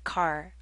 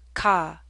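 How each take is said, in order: First: The word ends with a clear R sound. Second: The word ends without an R sound. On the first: "I say this R sound" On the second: "Many in New England say ka"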